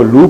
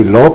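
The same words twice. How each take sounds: First: لو said as "loo", long oo vowel; reading la as lu. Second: لو said as "lau", open aw vowel; reading la as lau. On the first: Teacher demonstrating one reading of لو to class, "loo". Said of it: "کبھی آپ اس کو لو پڑھ دیتے ہیں". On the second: Teacher contrasting second reading of لو for students, "law". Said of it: "کبھی لو پڑھ دیتے ہیں". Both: Shown as a demonstration.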